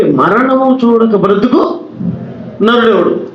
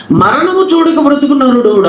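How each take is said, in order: First: Slow scripture recitation. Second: Emphatic high recitation. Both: Shown as a demonstration. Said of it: "బాగా వినాలి మీరంతా".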